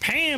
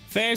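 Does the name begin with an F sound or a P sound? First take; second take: P sound; F sound. First: The name begins with a P sound. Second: The name begins with an F sound. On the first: "It could be Pam" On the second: "I'm substituting the P for uh, an F there"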